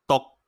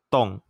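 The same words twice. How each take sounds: First: The pitch is high and cut short. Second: The pitch falls from high.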